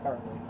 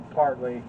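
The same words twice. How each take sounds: First: "partly" said softer and lower, falling; soft repeat of partly. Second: "partly" said firm, level, as an aside; first "partly" plainly weighted; stress on partly. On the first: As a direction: murmur "partly" as a wry echo. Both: Real, not acted.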